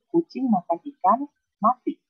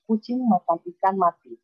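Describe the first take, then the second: First: It is said with a pause before 'mati'. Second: It is said without a pause before 'mati'.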